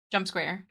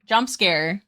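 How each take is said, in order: First: Said in the usual way. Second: Mock jump scare. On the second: Shown as a demonstration. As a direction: pop the line out like a playful fright.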